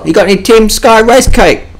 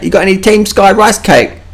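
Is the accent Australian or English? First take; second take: Australian; English. First: It is said in a plain Australian accent. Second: It is said in an English accent.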